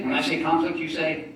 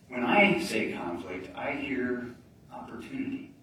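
First: Loud, high call for a response; hyped crowd warm up. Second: Slow, softened turn of the phrase; slow down and land the twist; slow and deliberate. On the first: Acted. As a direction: pump up the crowd for the answer. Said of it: "I'm gonna say a phrase". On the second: Shown as a demonstration. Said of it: "you're gonna think I'm nuts".

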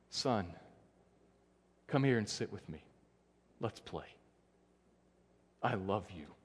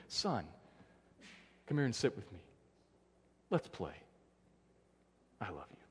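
First: Softer, gentle father inviting his son close; tender fatherly voice. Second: Softer, fading gentle father's invitation; tender fatherly voice. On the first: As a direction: hush down, like a loving father to a child. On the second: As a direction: hush down, loving father calling his son. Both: Retold or imitated. God speaking tenderly to his son.

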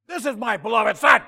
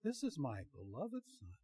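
First: Mock-thunderous shout, pitched high and loud; majestic yelling. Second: Very soft, gentle imitation of a woman's voice; hushed mock-feminine reading. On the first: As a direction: bellow it like a preacher voicing God. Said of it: "they have the majestic glory yelling". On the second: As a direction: say it softly, as a feminine narrator would. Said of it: "had it in a feminine voice".

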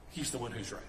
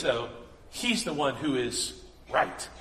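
First: Much softer, lower, letting it sink in; soft emphatic repeat. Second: Said in the usual way. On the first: Real, not acted. Preacher repeating to the congregation, hushed. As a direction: drop to a near hush for weight.

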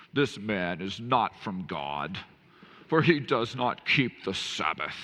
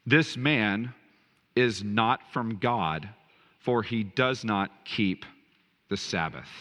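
First: Haughty, slow, nose in the air; snooty voice. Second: Said in the usual way. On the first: Retold or imitated. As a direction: say it like a snob. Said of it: "You almost have to say that in a snooty voice". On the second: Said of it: "Some of the Pharisees said".

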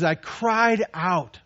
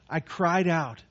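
First: 放慢，重读“cried”; slow stressed cried. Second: Said in the usual way. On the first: Shown as a demonstration. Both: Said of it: "he, he says".

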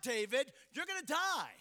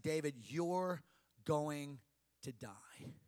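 First: Fear's warning. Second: "David, you're going to die" low, word by word; spelled-out, weighty warning. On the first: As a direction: press the threat home as fear. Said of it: "Fear was screaming at him". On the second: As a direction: pause before "going" and before "to die", dropping low. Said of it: "the uppercase, large font letters". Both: Acted.

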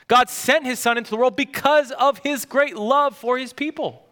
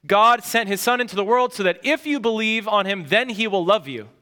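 First: Pastor gives the right version with "because" leaned on; corrected, emphatic. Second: Said in the usual way. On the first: Shown as a demonstration. Pastor correcting a backwards view of John 3:16, emphatic. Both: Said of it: "that's completely backwards".

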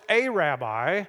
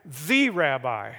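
First: "a" stretched out as a full word; stress on A. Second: "the" drawn out long as "thee"; stress on THE. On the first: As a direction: lean slowly on "a" in "a rabbi". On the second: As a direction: say "the" slowly and weightily, like "thee". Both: Shown as a demonstration. Contrasting A with THE rabbi.

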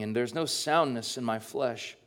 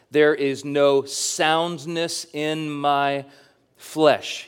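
First: Said in the usual way. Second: Slow, weighted "There is no soundness in my flesh"; emphatic quote. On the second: Shown as a demonstration. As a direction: give every word weight, slowly. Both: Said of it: "The phrase he repeats".

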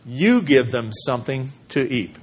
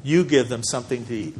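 First: You leaned on lightly, rest even; emphatic you. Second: You hit firmly, falling through the line; stress on You. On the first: Pastor reading the command in the verse, stress on You. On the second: Pastor repeating the command for the congregation, You stressed. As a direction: repeat it, landing hard on You. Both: Shown as a demonstration. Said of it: "The you in the Greek is emphatic".

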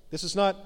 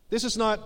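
The two takes are said the same way.

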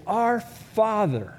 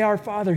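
First: Slow, tender "Our Father". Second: Gentle prayer. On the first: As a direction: pray "Our Father" unhurried, like a child. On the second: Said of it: "You say". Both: Shown as a demonstration.

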